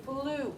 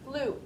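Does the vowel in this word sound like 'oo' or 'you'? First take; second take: oo; oo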